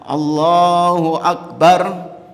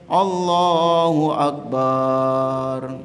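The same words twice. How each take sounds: First: The vowel in the final syllable is kept short. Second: The vowel in the final syllable is drawn out long. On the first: God is the greatest. The speaker calls it right. "Yang betul apa? Bar" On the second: God is a drum. The speaker calls it wrong. "Mana salahnya jemaah?"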